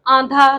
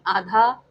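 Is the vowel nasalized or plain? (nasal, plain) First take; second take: nasal; plain. First: The vowel is nasalized. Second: The vowel is plain, without nasalization. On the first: The speaker calls it wrong. "आंधा नहीं" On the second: The speaker calls it right.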